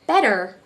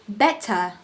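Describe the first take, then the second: First: The middle consonant sounds like a soft D. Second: The middle consonant is a crisp T. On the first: "the T has been changed to D and not T" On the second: "British pronounce their T"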